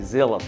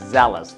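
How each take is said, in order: First: The first vowel is a long 'ee' sound. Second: The first vowel is a short 'e' sound. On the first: The speaker calls it wrong. "Because it's E A, you're not gonna pronounce it zealous" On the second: The speaker calls it right. "It's zealous. Just like how you will pronounce jealous"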